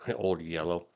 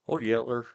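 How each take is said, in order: First: The second word ends with an 'oh' sound. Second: The second word ends with an 'er' sound. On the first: The speaker calls it wrong. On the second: The speaker calls it right.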